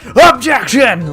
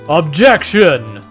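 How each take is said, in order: First: The word is yelled very loudly. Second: The word is only slightly louder than normal. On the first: "they fucking yell it" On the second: "He's just like slightly louder than usual"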